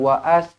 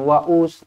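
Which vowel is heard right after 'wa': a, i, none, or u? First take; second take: a; u. First: An extra a vowel comes after wa. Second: An extra u vowel comes after wa. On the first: "Kita tak baca dengan waas" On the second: "kita tak baca dengan waus"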